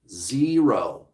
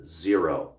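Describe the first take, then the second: First: "Zero" with a long, stretched first syllable; emphatic ZERO. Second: Dropped low, understated; low verdict. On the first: Coach repeating the honest odds, stretched "Zero". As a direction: draw out the start of "Zero". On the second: Coach giving viewers the honest odds, low and final. Verdict after long dramatic pause. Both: Real, not acted.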